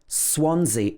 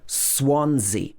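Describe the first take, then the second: First: The second S is sounded as Z. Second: The second S is sounded as Z.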